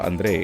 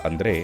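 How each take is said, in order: The two takes are said the same way.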